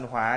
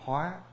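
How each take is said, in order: First: The word has a low, heavy, glottalized tone. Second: The word has a high rising tone. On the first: It means fire or anger. "dấu nặng" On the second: It means to transform. "nó có dấu sắc là hóa"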